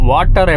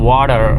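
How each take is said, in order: First: It is said in an Indian English accent. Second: It is said in an American accent. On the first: "நம்ம வாட்டர்னு சொல்லுவோமா?" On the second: "அமெரிக்காக்காரன் எப்படி சொல்லுவான்னா"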